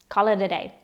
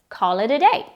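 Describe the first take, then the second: First: The words are said quickly and blended together. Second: The words are said quickly and blended together.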